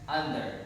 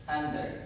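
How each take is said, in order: No difference in how they are said.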